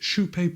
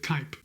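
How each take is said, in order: First: The name is given a Swedish-style pronunciation. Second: The name is given an English-style pronunciation. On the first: This is the name as it is meant to be said. The speaker calls it right. "the correct way to pronounce the name of this shoe is" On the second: This is how English speakers tend to read it. The speaker calls it wrong. "you're going to want to pronounce it"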